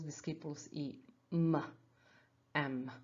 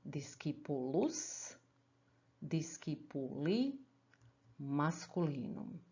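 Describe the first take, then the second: First: "discipulus i m" read with the endings as bare letters; abbreviated dictionary form. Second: "discipulus, discipuli, masculinum" slowly, each word in full; drawn-out model reading, pausing after each full word; full out-loud form. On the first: Latin teacher reading a dictionary entry, abbreviated dictionary form. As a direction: read "i" and "m" as separate short sounds. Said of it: "see them in a dictionary form". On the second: Teacher shows students how to say it out loud, full slow form. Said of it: "how to say them out loud". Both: Shown as a demonstration.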